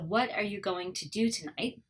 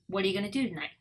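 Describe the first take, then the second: First: Each word is said fully and separately. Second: The words run together with reduced sounds.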